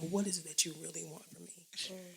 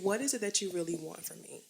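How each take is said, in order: First: It is asked in a dramatic, sad-sounding voice. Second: It is asked in a plain, ordinary tone.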